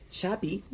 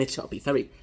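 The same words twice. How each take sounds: First: Chappie said with a high, fumbled vowel; mispronounced name. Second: Chappie said again with a laugh, fixed; laugh, then say Chappie properly; corrected name. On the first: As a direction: trip over the name Chappie, pitch jumping up. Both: Real, not acted.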